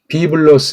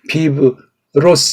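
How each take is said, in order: First: The consonant after the B is a clear L. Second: The consonant after the B is an R-like flap. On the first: The speaker calls it right. "비블로스 이렇게 해야 되지" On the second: The speaker calls it wrong. "이거는 에이 비 씨가 안 된 사람이에요"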